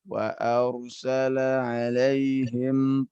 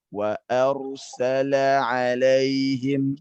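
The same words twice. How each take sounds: First: The long a vowel sounds weak and unsteady. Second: The long a vowel sounds firm and upright. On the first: The speaker calls it wrong. "Anda tidak tidak uh, meluruskan al-jauf pada A ya alif ya ... Jadi dia terdengar lemah" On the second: The speaker calls it right. "Pada saat kita kita tegakkan dia ... dia lebih tegak"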